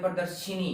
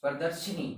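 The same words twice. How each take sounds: First: प्रदर्शिनी with a clear "shee" sound; प्रदर्शिनी said with the long ee vowel. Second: प्रदर्शनी ending in a short "shani"; प्रदर्शनी without the long i. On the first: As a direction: stretch the ee in प्रदर्शिनी. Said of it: "क्योंकि इसमें ई की मात्रा है". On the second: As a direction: say प्रदर्शनी as par-dar-sha-ni. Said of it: "इसको बोलते हैं प्रदर्शनी". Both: Shown as a demonstration.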